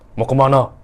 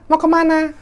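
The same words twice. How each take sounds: First: The voice is deep, full and heavy. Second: The voice is thin, light and shrill. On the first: It is how a man speaks. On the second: It is not how a man speaks.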